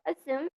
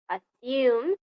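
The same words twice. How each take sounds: First: It is said in an American accent. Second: It is said in a British accent. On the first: "or assume in G A" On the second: "is said assume in R P"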